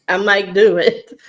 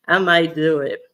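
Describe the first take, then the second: First: Laughing. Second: Said in the usual way. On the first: Real, not acted. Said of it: "laughs while admitting". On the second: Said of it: "repeats more soberly".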